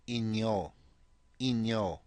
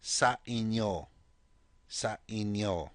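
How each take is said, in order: First: "Inyo" with a clear n before the y glide. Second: "Sa inyo" said slowly, n clear before yo. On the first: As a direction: bring out the n in "Inyo", in-yo. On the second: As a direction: spell out "Sa inyo" slowly, sounding the n. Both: Shown as a demonstration. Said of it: "You notice the I N in there".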